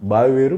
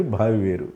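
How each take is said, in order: First: బావి with a plain unaspirated "b"; plain B opening బావి. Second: భావి with a breath puff after the B; aspirated "bh" opening భావి. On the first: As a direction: say బావి as "baavi", no puff of breath on the B. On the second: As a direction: say భావి as "bhaavi", aspirating the first consonant. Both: Shown as a demonstration. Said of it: "మన pronunciation correct లేకపోతే meaning మారిపోతుంది".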